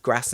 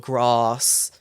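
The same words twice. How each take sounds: First: It is said in a northern English accent. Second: It is said in a southern English accent. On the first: "I say bath, grass" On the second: "I don't say bath or grass"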